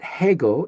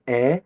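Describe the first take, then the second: First: The word begins with an h sound. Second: The word begins with a bare vowel. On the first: The speaker calls it wrong. "So it's not hego" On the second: The speaker calls it right. "we notice that that is a soft breathing sound"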